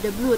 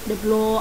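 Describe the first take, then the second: First: The vowel in blue sounds like oo. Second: The vowel in blue sounds like oh. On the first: The speaker calls it right. "ini kan dibacanya uh, the blue" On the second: The speaker calls it wrong. "tapi kalian bacanya the blow"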